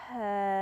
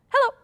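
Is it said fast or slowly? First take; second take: slowly; fast. First: It is said slowly. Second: It is said fast.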